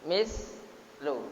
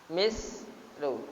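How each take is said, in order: Both takes have the same delivery.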